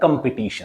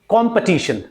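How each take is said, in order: First: The first syllable is unstressed and the second is dropped. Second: The first syllable carries stress, the second is light. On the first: The speaker calls it wrong. "Not competition" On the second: The speaker calls it right. "जो first syllable है इस पर आपको stress लगाना पड़ेगा"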